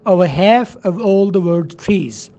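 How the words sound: It is spoken in an American accent. "लेकिन American में बोलेंगे"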